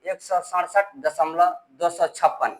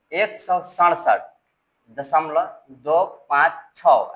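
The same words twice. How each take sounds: First: Slow demo of the mistake, "दो सौ छप्पन" as a whole number; wrong reading. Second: Name each digit after दशमलव one by one, "दो", "पाँच", "छः"; slow teacher demo, "दो पाँच छः" digit by digit; correct digit reading. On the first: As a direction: read "दो सौ छप्पन" after दशमलव as one whole number. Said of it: "ये गलत है". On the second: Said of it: "ऐसे पढ़ेंगे". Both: Shown as a demonstration.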